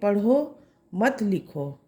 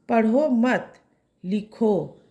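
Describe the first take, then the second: First: The pause comes after the first word. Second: The pause comes after the second word.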